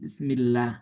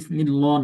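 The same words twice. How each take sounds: First: The 'l' sound is thin and light. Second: The 'l' sound is thick and heavy. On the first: The speaker calls it right. "কি পড়ি? বিসমিল্লাহ।" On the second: The speaker calls it wrong. "এখানে বিসমিল্লাহ না"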